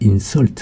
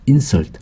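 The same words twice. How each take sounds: First: The stress is on the second syllable. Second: The stress is on the first syllable. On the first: It is a verb meaning to offend. "강세가 뒤로 가서" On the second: It is a noun meaning an offense. "강세가 앞에 있을 때는 명사가 됩니다"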